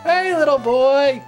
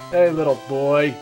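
First: It is said in Lieutenant Surge's Abridged voice. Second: It is said in the speaker's natural voice.

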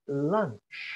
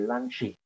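First: The word ends on the consonant sound. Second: The word ends with an added vowel sound. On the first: The speaker calls it right. "it's hard to say a word like lunch" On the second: The speaker calls it wrong. "you always want to put a vowel at the end"

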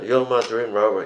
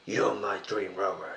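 First: It is said plainly, without styling. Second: It is said in a soulful R&B style.

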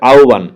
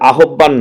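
First: The middle consonant is said like an 'o/w' sound. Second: The middle consonant is said as a clear 'b'. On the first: The speaker calls it right. "এটার উচ্চারণটা হবে আহ্বান... উচ্চারণ ও এর মতো হবে" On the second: The speaker calls it wrong. "এটা কিন্তু আহ্বান না"

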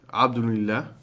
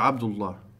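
First: An n sound is heard between abd and allah. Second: Abd joins allah directly with no n sound. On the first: The speaker calls it wrong. "Je zegt niet abdunillah" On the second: The speaker calls it right. "We zeggen abdullah"

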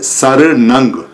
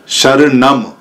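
First: The word ends with an 'ng' sound. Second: The word ends with an 'm' sound. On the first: This is the Pali form. "पाली के अंदर आता है शरणंग" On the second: This is the Sanskrit form. "Sanskrit भाषा में बाद में हलंत आता है, मैं आता है, अम आता है"

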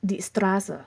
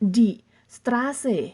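First: It is pronounced in a casual regional accent. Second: It is pronounced carefully, each sound distinct. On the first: This is how people really say it locally. "แต่พอพูดจริงๆ แล้วเขาก็จะพูดว่า ... อันนี้คือสำเนียงที่พวกเพิ่งใช้ในเขตนี้กันนะคะ" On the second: This is how it is taught in class. "อาจจะได้ยินคุณครูพูดว่า"

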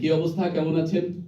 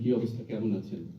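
First: It is spoken louder, projected to the back. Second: It is spoken quietly, at a conversational level. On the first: The listener is at the back of the room. "এটা ওই পেছনের ওনাকে বলি" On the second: The listener is standing close by. "আমি একজন কাছের মানুষকে যেভাবে কথা বলবো ... এর বেশি বলার দরকার নেই"

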